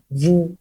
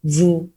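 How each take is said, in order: The two takes are said the same way.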